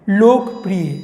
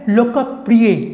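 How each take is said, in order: First: The word is said the common, everyday way. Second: The word is said in a careful, full form. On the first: The speaker calls it wrong. "वह गलत उच्चारण है" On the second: The speaker calls it right. "वास्तव में इसका सही उच्चारण होता है"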